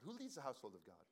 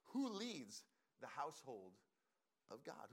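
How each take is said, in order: First: Said in the usual way. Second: Spaced out with pauses before "of God"; measured rhetorical question; slow, deliberate question. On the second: Real, not acted. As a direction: pose it slowly, phrase by phrase. Poses key question, then repeats it.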